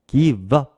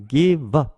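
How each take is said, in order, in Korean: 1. 빠르게 말하면 "give"의 v 소리가 "up"으로 이어집니다. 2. 빠르게 말하면 "give"의 v 소리가 "up"으로 이어집니다.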